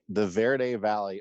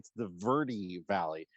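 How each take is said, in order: First: Verde is said with the Spanish-style pronunciation. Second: Verde is said with the local pronunciation. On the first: This is how outsiders say the valley's name. The speaker calls it wrong. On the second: This is how residents say the valley's name. The speaker calls it right.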